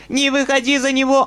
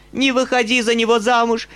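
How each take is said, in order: First: Higher and louder plea, peaking on него; old woman repeating her plea in a higher, louder voice; rising plea. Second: High, loud plea with stress on Не; old woman begging the girl, loud. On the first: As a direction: push the plea even higher. Old woman begging Nastenka. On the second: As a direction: beg her not to marry. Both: A narrator's reading.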